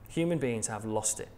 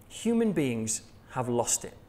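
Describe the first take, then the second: First: "Human beings have lost it" dropped lower and quieter; quiet echo to let the point land; softer repeat. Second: "Human beings have lost it" said slowly, each word weighted; solemn first delivery of the key line; slow emphatic statement. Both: Shown as a demonstration. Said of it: "repeated for emphasis".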